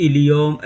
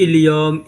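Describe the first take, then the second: Both takes have the same delivery.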